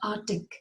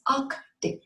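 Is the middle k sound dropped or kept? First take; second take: dropped; kept. First: The k sound in the middle is dropped. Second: The k sound in the middle is kept. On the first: The speaker calls it wrong. "It is not Arctic" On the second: The speaker calls it right. "There's a k sound in between"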